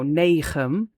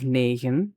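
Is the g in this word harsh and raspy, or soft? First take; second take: harsh; soft. First: The g is a harsh, raspy throat sound. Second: The g is a soft, gentle throat sound. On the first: The speaker is from the Netherlands. "if you're Dutch, Dutch from the Netherlands, you go ch" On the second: The speaker is from Flanders. "which is what we do in Flanders"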